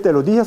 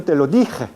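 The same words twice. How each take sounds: First: Said in the usual way. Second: "dije" with a rasping uvular j; uvular Castilian j. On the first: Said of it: "No se dice". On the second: Shown as a demonstration. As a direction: grind the j of "dije" in the throat. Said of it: "La J uvular castellana". ("dije" con jota uvular)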